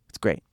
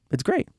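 First: Said in the usual way. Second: Great lifted high into a bright rise; rising it's great. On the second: Shown as a demonstration. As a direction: repeat it as an excited question.

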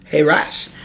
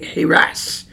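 First: Heras with a long A, as in "HAY-ras"; trying out a pronunciation. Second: Heras with a short e, as in "hair-as"; trying out a pronunciation. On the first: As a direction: stretch the first vowel of Heras into a long A. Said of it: "long A sound". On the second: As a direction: sound out Heras as heh-RAS. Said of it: "long A sound, so it would be like". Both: Shown as a demonstration.

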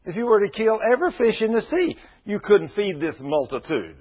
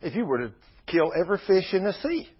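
First: Repeated higher, with more force; emphatic repeat. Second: Said in the usual way. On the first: Retold or imitated. Moses pleading with God about feeding the crowd, emphatic. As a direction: push the "sea" up harder the second time. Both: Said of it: "Moses said".

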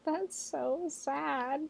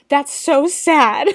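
First: High, tiny, drawn-out whimper of pity; hushed, high-pitched pity; mock heartbroken. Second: High, loud, drawn-out pity; big, slow cry of dismay; emotional outburst. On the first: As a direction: say it slowly and softly, aching with sympathy. Reacting to lonely party story. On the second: Real, not acted. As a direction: wail it with exaggerated sympathy. Exclaiming over the lonely child.

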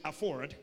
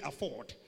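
First: American "afford" with the r sounded; American accent. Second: British "afford" with a silent r; British accent. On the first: Preacher coaching the congregation, "afford" in an American accent. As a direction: say "afford" in American English, r pronounced. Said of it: "say it like American English". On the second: Preacher coaching the congregation, "afford" in a British accent. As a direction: say "afford" in British English, dropping the r. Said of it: "Now, British, say afford". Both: Shown as a demonstration.

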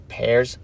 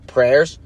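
First: "Pairs" said as pairs, no r after the p, lower and softer; "Pairs" fixed to a plain p with no r, dropping in pitch; corrected to pairs. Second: "Prayers" said as prayers, with an r after the p, rising like a question; "Prayers" slipped in with a clear pr sound at the start; misspoken prayers. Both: Shown as a demonstration. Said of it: "I can't talk".

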